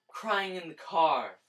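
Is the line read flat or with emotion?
emotional. It is read with strong feeling.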